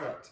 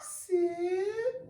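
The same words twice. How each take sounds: First: It is said in a plain, flat voice. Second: It is said in a cooing baby-talk voice.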